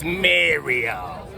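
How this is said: It is said in a New York accent. "Like that. That's how he talks"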